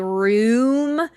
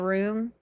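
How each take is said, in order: First: The vowel is drawn out and carefully enunciated. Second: The vowel is short, close to rum. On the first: The speaker calls it right. "have to enunciate and say room" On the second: The speaker calls it wrong. "I say room, and they think it sounds too close to rum"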